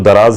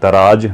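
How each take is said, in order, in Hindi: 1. शब्द का अंत z की आवाज़ से होता है। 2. शब्द का अंत j की आवाज़ से होता है। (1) "लास्ट में जेड की आवाज़ है, इंग्लिश का जेड होता है ना, तो इसको दराज ही कहें" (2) "दराज ना कहें, जे की आवाज़ ना निकालें"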